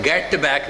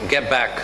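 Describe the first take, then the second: First: "get back" with the t fully released; over-careful "get back", little vowel after the t; unlinked "get back". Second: "get back" run together, the t barely released; connected "get back" as one unit; linked "get back". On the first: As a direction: sound GET and BACK separately, with an audible t. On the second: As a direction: hold the t of GET straight into BACK. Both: Shown as a demonstration. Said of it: "मैं get back नहीं कह रहा".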